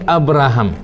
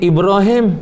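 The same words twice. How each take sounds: First: "Abraham" as "ab-ra-ham"; Westerners' pronunciation. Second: "Ibrahim" drawn out as "ib-ro-him"; our pronunciation. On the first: Teacher imitating Westerners' name for the prophet, "Abraham" as "ab-ra-ham". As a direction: say "Abraham" with open A vowels. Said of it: "Fak Putih panggil Abraham". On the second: Teacher comparing prophets' names, "Ibrahim" said slowly as "ib-ro-him". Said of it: "Kita panggil". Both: Shown as a demonstration.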